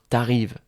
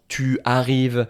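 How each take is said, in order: First: 'Tu' is shortened to a t sound. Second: 'Tu' is said in full before the verb. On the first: The speaker calls it right. "Je vais dire t'arrives" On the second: The speaker calls it wrong. "non, on ne va pas dire ça"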